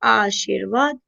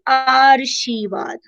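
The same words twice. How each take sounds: First: The r sound comes just before the v. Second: The r sound comes just before the sh. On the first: The speaker calls it right. "व से पहले उच्चारित करो तो र यही आएगा" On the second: The speaker calls it wrong. "श के ऊपर र है ... उससे पहले उसको उच्चारित करोगे"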